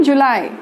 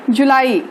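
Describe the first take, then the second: First: जुलाई as "ju-LAI", two syllables; English pronunciation. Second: जुलाई as "ju-laa-ee", three syllables; Hindi pronunciation. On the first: Teacher giving students the English month, English pronunciation. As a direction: say जुलाई the English way, rhyming with lie. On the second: Teacher introducing the next month, Hindi pronunciation. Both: Shown as a demonstration. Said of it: "English में कहते हैं".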